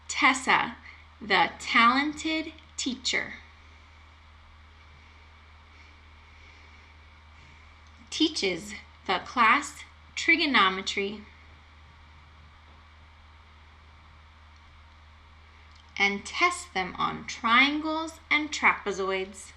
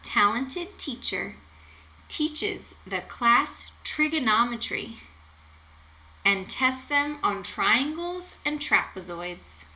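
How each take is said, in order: First: It is said at a slow pace. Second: It is said at a fast pace.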